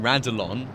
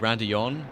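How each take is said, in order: First: The middle is said with an L sound. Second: The middle is said without an L sound. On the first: The speaker calls it wrong. "I kept on saying Radilon with an L" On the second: The speaker calls it right. "It's actually Radillon"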